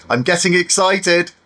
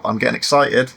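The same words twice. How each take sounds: First: High-pitched, excited delivery; playful excitement. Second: Said in the usual way. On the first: Pretend. Vlogger awaiting the goggles test, playfully excited. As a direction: say it higher, with giddy anticipation. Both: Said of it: "Sorry, I'm getting excited".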